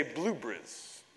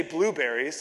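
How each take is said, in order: First: Put-on blueberries in an English accent, clipped to BLUE-bries. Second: Said in the usual way. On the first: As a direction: squeeze the middle of blueberries the English way. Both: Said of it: "if you wanna practice an English accent".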